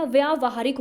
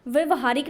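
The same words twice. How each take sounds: First: व्यावहारिक said with a long aa, vyaa-va-haa-rik; व्यावहारिक as the teacher's right answer, long vyaa; correct form said aloud. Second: व्यवहारिक said with a short first a, vya-va-haa-rik; wrong spelling said aloud. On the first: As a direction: stretch the first vowel in व्यावहारिक. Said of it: "व्यावहारिक होता है". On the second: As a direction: read व्यवहारिक as the incorrect short form. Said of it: "व्यवहारिक नहीं होता". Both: Shown as a demonstration.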